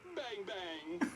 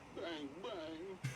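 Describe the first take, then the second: First: It is said in a happy tone. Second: It is said in a sad tone.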